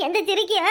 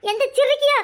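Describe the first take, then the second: First: Said in the usual way. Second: High, loud tearful outburst; wailing curse. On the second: Acted. Woman cursing whoever left the lemon, high tearful wail.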